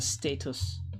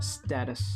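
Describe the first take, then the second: First: It is said with a British pronunciation. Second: It is said with an American pronunciation. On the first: "I think the British call it status" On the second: "Us Americans, we call it status"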